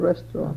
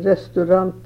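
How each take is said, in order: First: It is said with an English pronunciation. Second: It is said with a Norwegian pronunciation. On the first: "instead of restaurant" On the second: "We say restaurant"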